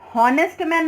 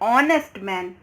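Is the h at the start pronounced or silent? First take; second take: pronounced; silent. First: The h at the start is pronounced. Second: The h at the start is silent. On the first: The speaker calls it wrong. "हॉनेस्ट man नहीं" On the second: The speaker calls it right. "एच silent हो जाता है"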